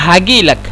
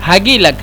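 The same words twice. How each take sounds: Both takes have the same delivery.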